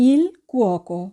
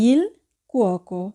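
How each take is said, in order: No difference in how they are said.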